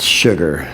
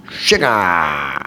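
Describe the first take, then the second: First: Said in the usual way. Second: System of a Down way. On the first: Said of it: "for those of you who didn't understand". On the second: Retold or imitated. Fan announcing the band's first single, drawn-out imitation. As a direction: belt out a long, sliding "shu-gaaah". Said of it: "way of saying sugar".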